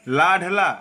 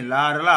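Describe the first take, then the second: First: लाडला with a hard d; wrong pronunciation. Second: लाडला with a flapped r sound, lower; correct pronunciation. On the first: Teacher showing the slip, wrong pronunciation. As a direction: stop on the d in लाडला. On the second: Teacher correcting the slip, correct pronunciation. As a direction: tap a light r in लाडला. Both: Shown as a demonstration. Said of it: "अरे नहीं".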